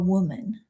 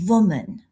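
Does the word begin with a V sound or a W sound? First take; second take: W sound; V sound. First: The word begins with a W sound. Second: The word begins with a V sound. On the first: The speaker calls it right. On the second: The speaker calls it wrong.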